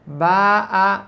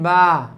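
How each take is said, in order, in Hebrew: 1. התנועה נחתכת בעצירה גרונית. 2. התנועה ממשיכה בלי עצירה גרונית. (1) "אתה חייב לעצור את הקמץ ולומר א'" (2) "כולם אומרים באה, אבל עכשיו לא אמרתי א', סלסלתי בקמץ"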